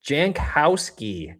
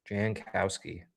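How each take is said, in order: First: "Jankowski" said slowly and louder, falling at the end; drawn-out name. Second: "Jankowski" said softer and quicker, like settling on it; quick quiet repeat. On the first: Looking up player seventy-seven, sounding out "Jankowski" slowly. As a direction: stretch out "Jankowski" carefully and firmly. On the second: Checking player seventy-seven's name, quiet repeat of "Jankowski". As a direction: mutter "Jankowski" once more under the breath. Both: Shown as a demonstration. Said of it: "Who was seventy-seven?".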